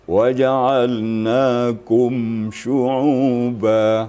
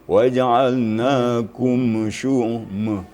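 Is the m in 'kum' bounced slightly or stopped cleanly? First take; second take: clean; bounced. First: The m is closed cleanly with no added vowel. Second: The m bounces slightly, like a faint vowel. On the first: The speaker calls it right. "Sedangkan mim itu harus izhar" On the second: The speaker calls it wrong. "tadi mimnya ... Ada sedikit mimnya"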